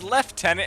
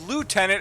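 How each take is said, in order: First: The first syllable sounds like 'lef'. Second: The first syllable sounds like 'loo'.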